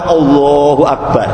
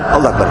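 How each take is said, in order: First: The phrase is said slowly and deliberately. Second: The phrase is said quickly and hurriedly. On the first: The words are said with awareness of their meaning. The speaker calls it right. "Dengan pelan-pelan" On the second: The words are said as a mere formality. The speaker calls it wrong. "tidak cepet-cepetan, Allahu Akbar. Tidak begitu"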